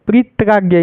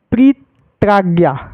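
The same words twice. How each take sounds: First: Said in the usual way. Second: प्रीत्राज्ञा slowly, with a break after pre; slow syllable split. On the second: Shown as a demonstration. Teacher showing the joined word, slow split demonstration. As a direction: split प्रीत्राज्ञा into two held parts.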